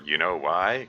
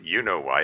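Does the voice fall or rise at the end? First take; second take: rises; falls. First: The voice rises at the end. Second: The voice falls at the end.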